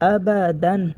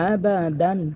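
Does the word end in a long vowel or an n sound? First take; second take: n sound; n sound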